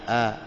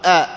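First: "آ" with the glottal catch softened, almost like h; second hamza, eased. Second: "آ" said as a firm, full glottal stop; first hamza, articulated. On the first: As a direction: let آ slide gently between hamza and alif. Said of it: "مسهلة". ("آ" همزة ثانية مسهلة) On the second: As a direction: hit آ hard as a true hamza. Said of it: "الأولى محققة". ("آ" همزة أولى محققة) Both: Shown as a demonstration.

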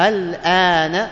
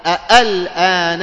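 First: "الآن" slow, sliding from first hamza into a softened second; eased hamza. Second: "أ، الآن" loud and slow, two hard glottal stops; both hamzas articulated. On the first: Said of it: "سمى تسهيل". ("الآن" بالتسهيل) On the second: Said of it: "أنطقها محققة". ("أ، الآن" بتحقيق الهمزتين) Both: Shown as a demonstration.

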